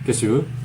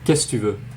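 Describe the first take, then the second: First: The word que is dropped before tu. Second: The word que is dropped before tu.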